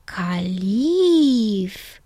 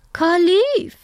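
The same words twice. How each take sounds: First: Long drawn-out name with a falling end; savouring the name. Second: High, loud aunt with a rising tune; aunt's voice. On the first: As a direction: stretch it out, trying the name on. Girl tries out the name. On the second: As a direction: announce the name high, lifting at the end. Aunt tells the bird's name. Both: A narrator's reading.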